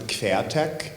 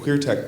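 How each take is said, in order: First: The first part sounds like German 'quer'. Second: The first part sounds like English 'queer'. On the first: It plays on the German word for transversal. "So actually you would pronounce it Quertech" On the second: It plays on the English word for queer. "I'm pronouncing it queer tech"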